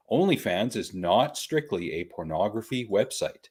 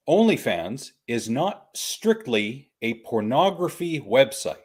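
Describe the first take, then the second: First: "not strictly" restated evenly, with less force; deliberate repetition. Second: "OnlyFans is not strictly" spoken slowly and deliberately; emphatic statement. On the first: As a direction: repeat "not strictly" as a settled, measured point. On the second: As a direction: spell out "not strictly" firmly, word by word. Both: Real, not acted. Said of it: "I'm gonna say that again".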